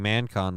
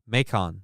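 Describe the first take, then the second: First: The first syllable sounds like man. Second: The first syllable has no n sound. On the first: The speaker calls it wrong. "I was saying Mancon, wasn't I?" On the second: The speaker calls it right. "They pronounce it Macon"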